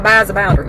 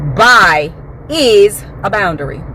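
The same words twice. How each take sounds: First: The phrase is said flatly, without special force. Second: The phrase is said with strong, forceful emphasis. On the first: It seems like an ordinary topic. "it just looks like, okay" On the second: The topic matters a great deal. "I put emphasis on that thing when I'm talking about it"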